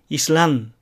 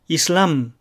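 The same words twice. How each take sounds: First: "イスラン" as islam ending in n; tongue tip to gum ridge at the end of イスラン; Spanish islam with m said as n; final n. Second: "イスラム" as islam, ending on lips-closed m; Spanish islam with written m sounded; final m. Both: Shown as a demonstration. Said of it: "語末のエメを完全にエネで".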